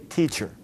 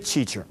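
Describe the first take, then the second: First: The ch sound is said with rounded lips. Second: The ch sound is said without lip rounding. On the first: The speaker calls it right. "You want to say teacher" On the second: The speaker calls it wrong. "you don't want to say teacher"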